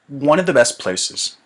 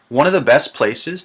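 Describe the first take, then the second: First: The small words are squeezed and reduced. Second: The small words are pronounced fully, not squeezed. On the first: The speaker calls it right. "I need to squeeze them" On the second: The speaker calls it wrong. "It sounds a little bit funny because I'm not squeezing my words"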